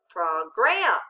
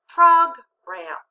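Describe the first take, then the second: First: The stress is on the second syllable. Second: The stress is on the first syllable. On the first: "Let's try changing where we accent it" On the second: "Now let's put it together with the accent"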